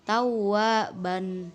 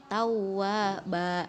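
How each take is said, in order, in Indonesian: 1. Kata ini berakhir dengan bunyi n. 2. Kata ini berakhir dengan vokal a panjang. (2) "dibaca dua harokat"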